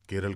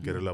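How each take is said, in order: First: The word ends on a bare consonant. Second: The word ends with an added vowel. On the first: The speaker calls it wrong. "केरल क्यों बोलते हो" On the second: The speaker calls it right. "केरला बोलो"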